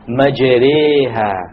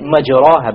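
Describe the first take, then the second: First: The vowel after the r leans toward e. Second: The vowel after the r is an open a. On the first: The speaker calls it right. "You have to pronounce it with an imala" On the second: The speaker calls it wrong. "you would say majraha, but that's a mistake"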